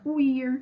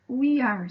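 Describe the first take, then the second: First: It is said as one short contracted word. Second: It is said as two separate full words.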